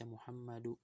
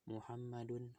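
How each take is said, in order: First: The word ends without an n sound. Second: The word ends with an n sound. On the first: The speaker calls it wrong. "nggak dibaca Muhammadu" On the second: The speaker calls it right. "akhirannya dia tanwin semua ya"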